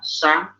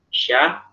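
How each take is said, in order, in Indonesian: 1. Konsonannya adalah bunyi s yang berdesis tajam. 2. Konsonannya adalah bunyi sh yang berdesis lembut. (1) "ada orang baca gitu shin ... Itu dia terlalu kemajuan" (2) "shin itu kita taruh di tengah lidah"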